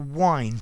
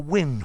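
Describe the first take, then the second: First: The vowel is long, rhyming with find. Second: The vowel is short, rhyming with pinned. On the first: The bank twists backwards and forwards. "to wind, to go backwards and forwards" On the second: The moving air wanders down the path. "Maybe the wind wandering, walking down, moving down the path"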